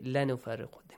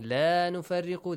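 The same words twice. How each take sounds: First: The vowel of the first word is cut short. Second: The vowel of the first word is held long. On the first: We surely make distinction between the prophets. The speaker calls it wrong. "They say لَا نُفَرِّقُ" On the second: We make no distinction between the prophets. The speaker calls it right. "Instead of saying لَا نُفَرِّقُ"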